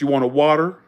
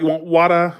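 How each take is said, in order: First: It is said in the speaker's home accent. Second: It is said in a Boston accent.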